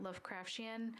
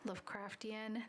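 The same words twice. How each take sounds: First: The ending sounds like 'Martian'. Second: The ending does not sound like 'Martian'. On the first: The speaker calls it wrong. "not ... I've been reading it like you would Martian" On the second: The speaker calls it right. "It should be said as"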